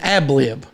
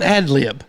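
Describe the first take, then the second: First: The first syllable ends with a 'b' sound. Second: The first syllable ends with a 'd' sound. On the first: "or an ab lib. Ever how you say it" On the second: "that is called an ad lib"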